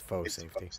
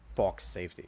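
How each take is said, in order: First: The first word sounds like 'foh', with no final ks. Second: The first word sounds like 'fox', with a final ks. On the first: The speaker calls it right. "It's faux safety" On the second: The speaker calls it wrong. "He's pronouncing the F A U X as Fox"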